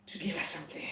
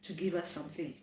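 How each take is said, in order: First: Whispered and breathy, no voice. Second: Said in the usual way. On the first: Shown as a demonstration. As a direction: repeat it as a secret whisper. Repeat of the same words, whispered.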